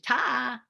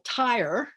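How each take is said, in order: First: The final R sound is dropped. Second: The final R sound is pronounced.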